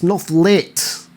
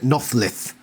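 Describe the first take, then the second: First: The word ends with a 't' sound. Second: The word ends with a 'th' sound. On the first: The speaker calls it right. "It's Nothlit" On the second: The speaker calls it wrong. "Axe pronounces it Nothlith"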